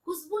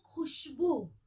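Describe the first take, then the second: First: खुशबू as khusboo, plain kh, higher; wrong खुशबू. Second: खुशबू with throaty kh and sh; careful model खुशबू, fricative kh; nukta खुशबू. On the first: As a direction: say खुशबू with s and puffed k. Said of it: "खुशबू नहीं बोलेंगे". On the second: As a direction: say खुशबू with scraped kh. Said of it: "क्या बोलेंगे". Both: Shown as a demonstration.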